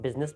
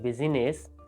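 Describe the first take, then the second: First: The word is said with two syllables. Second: The word is said with three syllables. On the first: The speaker calls it right. "बिजनेस बोलना थोड़ा सा आपको अच्छा भी लगता है" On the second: The speaker calls it wrong. "अगर आप बिजीनेस बोलेंगे ... तो थोड़ा सा अजीब लगेगा"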